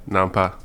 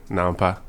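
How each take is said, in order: Both takes have the same delivery.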